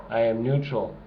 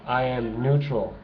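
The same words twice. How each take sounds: The two takes are said the same way.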